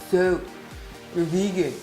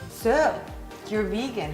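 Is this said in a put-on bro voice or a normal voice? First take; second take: bro voice; normal. First: It is said in a put-on bro voice. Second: It is said in the speaker's normal voice. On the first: "let me do it in a bro voice" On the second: "I don't know"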